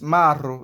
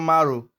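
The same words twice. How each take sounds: First: The r is rolled with the tongue. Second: The r is a plain, unrolled sound. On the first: The speaker calls it right. "It is Maro" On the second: The speaker calls it wrong. "It is not Maro"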